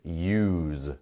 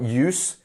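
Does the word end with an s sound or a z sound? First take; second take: z sound; s sound. First: The word ends with a long z sound. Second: The word ends with a short s sound. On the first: The speaker calls it right. "it's got that long Z sound" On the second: The speaker calls it wrong. "it's not use"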